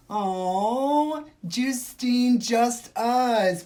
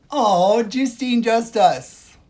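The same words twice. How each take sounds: First: Higher, louder, sing-song snooty voice; mock gasp. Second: Much louder, higher snooty squeal; mock shriek. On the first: Streamer mocking a rude commenter's name, snooty gasp. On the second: Streamer mocking the commenter's name again, squealing louder.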